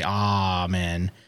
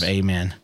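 First: Amen is said with a posh, snooty pronunciation. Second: Amen is said with a plain, ordinary pronunciation. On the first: The speaker sounds upper-class. "the snooty people say" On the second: The speaker sounds ordinary. "instead of"

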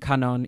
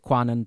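First: The name is said without a W sound. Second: The name is said with a W sound. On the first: "the W in Kanon is silent" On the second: "prefer to say Kwanon"

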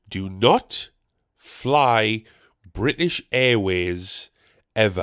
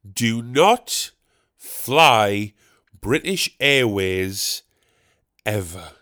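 First: It is said at normal loudness and speed. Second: It is said slightly louder and slower.

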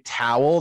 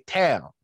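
First: The word has a clear W sound. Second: The W is dropped, sounding like 'tail'. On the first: "they don't say towel" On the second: "They say towel"

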